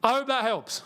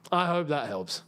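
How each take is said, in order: First: Raised pitch, falling at the end; higher-pitched sign-off. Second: Dropped, altered voice with a falling end; lower-pitched sign-off. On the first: Sign-off repeated in another voice. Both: Pretend.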